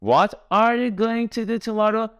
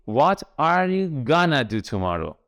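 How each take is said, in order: First: Said in the usual way. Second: Slow teacher's model with gonna as one word; reduced going to. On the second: Shown as a demonstration. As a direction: run going to together into gonna. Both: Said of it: "مخفف going to چی بود؟".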